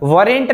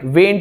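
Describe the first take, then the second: First: The word is said with two syllables. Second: The word is said as one short syllable. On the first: The speaker calls it wrong. "वरेंट नहीं बोला जाता है इसको" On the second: The speaker calls it right. "वेंट बोला जाता है"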